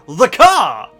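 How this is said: It sounds excited, like a great idea.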